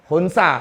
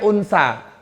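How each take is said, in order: First: The word begins with an h sound. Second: The word begins directly with a vowel. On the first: The speaker calls it right. "Hunsa, bukan unsa, hunsa pakai h" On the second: The speaker calls it wrong. "bukan unsa"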